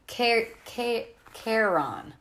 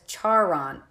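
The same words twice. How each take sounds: First: "Charon" with a hard K, CARE-on; "Charon" coached as CARE-on, higher-pitched; syllable-by-syllable teaching. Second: "Charon" sounded out as it is spelled; name as spelled. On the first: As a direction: sound out "Charon" in pieces, starting with K. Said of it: "Say it with me". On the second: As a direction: say "Charon" slowly as SHAR-on. Character sounds out misread name. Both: A narrator's reading.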